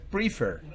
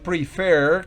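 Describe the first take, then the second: First: The stress is on the first syllable. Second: The stress is on the second syllable. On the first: The speaker calls it wrong. "no es prefer" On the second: The speaker calls it right. "es prefer"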